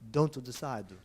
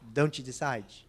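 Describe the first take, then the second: First: An 'o' vowel is added between consonants. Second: An 'e' vowel is added between consonants. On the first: "the Japanese ... they put an O" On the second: "the Brazilians ... they put a an E"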